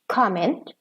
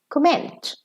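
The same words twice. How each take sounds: First: The stress is on the first syllable. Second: The stress is on the last syllable. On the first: It is used as a noun. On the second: It is used as a verb.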